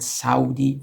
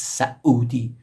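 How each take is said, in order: First: Said in the usual way. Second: "Saudi" slowly, broken by a glottal stop into Sa-udi. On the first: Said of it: "it's actually not correct". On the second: Shown as a demonstration. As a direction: split "Saudi" with a catch in the throat before the u. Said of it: "So there is a glottal stop".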